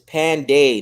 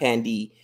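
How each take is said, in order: First: The name ends with a 'day' sound. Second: The name ends with a 'dee' sound. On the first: The speaker calls it right. "It's Panday" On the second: The speaker calls it wrong. "not Pandy"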